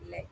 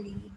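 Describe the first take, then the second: First: "lead" said with a short e; short-vowel LEAD. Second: "lead" said with a long ee; long-vowel LEAD. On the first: Teacher showing students the metal sense of lead, short-vowel pronunciation. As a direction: say "lead" to rhyme with bed. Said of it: "but here I'm saying lead". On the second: Teacher showing students the guide sense of lead, long-vowel pronunciation. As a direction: say "lead" to rhyme with need. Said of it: "I'm here, I'm saying lead". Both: Shown as a demonstration.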